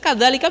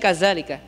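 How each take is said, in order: First: The middle consonant is a soft 'dh' sound. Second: The middle consonant is a buzzing 'z' sound. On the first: The speaker calls it right. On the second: The speaker calls it wrong. "menjadi ... semuanya jadi za"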